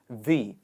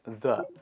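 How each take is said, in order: First: The word is said with a long ee vowel. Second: The word is said with a short uh vowel. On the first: The speaker calls it right. "It is the" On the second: The speaker calls it wrong. "not the"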